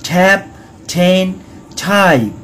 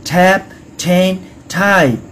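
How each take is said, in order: The two takes are said the same way.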